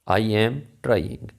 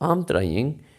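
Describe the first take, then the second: First: I and am are said as separate words. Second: I and am merge into one syllable.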